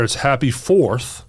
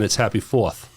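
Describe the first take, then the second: First: It is said in a Southern US accent. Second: It is said in a Maine accent. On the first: "Down here"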